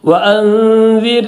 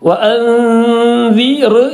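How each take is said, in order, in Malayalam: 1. r കനം കുറഞ്ഞതും നേർത്തതുമാണ്. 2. r കനമുള്ളതാണ്, വായ നിറഞ്ഞിരിക്കും. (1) "റോഇനെ തർഖീഖ് ചെയ്തുകൊണ്ടാണ് ഓതേണ്ടത്" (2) "റോ അർ എന്ന് പറയുന്നത് പോലെ വഅൻദിർ എന്ന് പറയരുത്"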